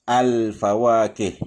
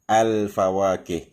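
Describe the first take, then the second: The two takes are said the same way.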